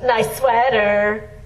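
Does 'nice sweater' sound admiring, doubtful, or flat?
flat. It is said flatly, without warmth. The listener feels not so good about it. "Not so good"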